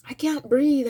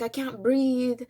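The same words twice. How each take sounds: First: Louder panicked gasp. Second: Slow panicked plea. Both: Retold or imitated. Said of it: "I was like".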